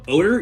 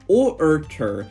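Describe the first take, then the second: First: No R sound comes before the T. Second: An R sound comes before the T. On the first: The speaker calls it right. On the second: The speaker calls it wrong.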